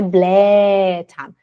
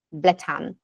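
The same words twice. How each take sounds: First: Blättern with a long drawn-out first ä; wrong long vowel. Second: Blättern with a short first ä; short vowel. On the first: Teacher correcting students, wrongly stretched ä in Blättern. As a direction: drag the ä of Blättern far too long. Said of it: "não é Blättern". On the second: Teacher giving students the right version, short ä in Blättern. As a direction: keep the ä of Blättern brief. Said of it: "ela fica curtinha". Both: Shown as a demonstration.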